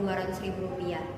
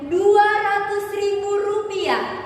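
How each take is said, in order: First: The amount is said flatly without emphasis. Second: The amount is said with strong emphasis. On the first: The amount does not stand out to listeners. The speaker calls it wrong. "karena kurangnya penekanan" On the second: The amount is highlighted as the key point. The speaker calls it right. "itu kita memberikan penekanan pada dua ratus ribu rupiah"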